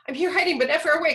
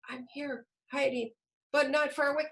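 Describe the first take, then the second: First: It is read hurriedly at a very fast pace. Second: It is read very quietly, without projection. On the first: "that's way too fast" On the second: "You can't hear them"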